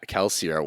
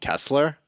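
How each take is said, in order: First: The name ends in 'see-er' with an 'ee' sound. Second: The name ends in 'sler' with no 'ee' sound. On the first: The speaker calls it right. "there is an I in that name" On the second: The speaker calls it wrong. "I ignored the I"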